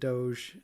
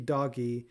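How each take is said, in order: First: The g is a soft g sound. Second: The g is a hard g sound. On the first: The speaker calls it wrong. "I refuse to pronounce it Doge" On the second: The speaker calls it right. "the G has a gus sound, so it should be doggy"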